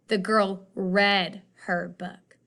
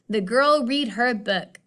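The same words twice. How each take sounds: First: The vowel in read is a short e. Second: The vowel in read is a long ee. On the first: The speaker calls it right. "I'm gonna flip that vowel sound too" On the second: The speaker calls it wrong. "that still doesn't sound right"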